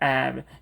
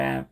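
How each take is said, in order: First: The initial H sound is pronounced. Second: The initial H sound is dropped. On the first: The speaker calls it wrong. "have가 아니라" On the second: The speaker calls it right. "바로 have로 넘어가는 거"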